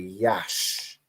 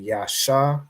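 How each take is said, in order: First: The word ends on the consonant sound. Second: The word ends with a final vowel sound. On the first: The speaker calls it right. "you just say Yash" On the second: The speaker calls it wrong. "you wouldn't say Yasha"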